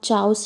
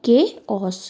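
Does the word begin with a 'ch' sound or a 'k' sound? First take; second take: ch; k. First: The word begins with a 'ch' sound. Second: The word begins with a 'k' sound. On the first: The speaker calls it wrong. "को हम चाउस नहीं पढ़ते" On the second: The speaker calls it right. "इसका pronunciation होता है के ऑस"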